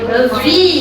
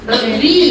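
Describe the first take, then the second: No difference in how they are said.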